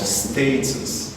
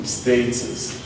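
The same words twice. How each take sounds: No difference in how they are said.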